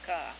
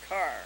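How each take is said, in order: First: The final R sound is dropped. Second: The final R sound is clearly pronounced. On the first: "they take an R off if it's at the end of a word" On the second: "They don't say car"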